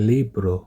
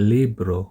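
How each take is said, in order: The two takes are said the same way.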